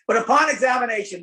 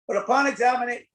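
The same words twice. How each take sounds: First: The phrase is said with strong emphasis. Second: The phrase is said with little emphasis. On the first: The speaker calls it right. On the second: The speaker calls it wrong.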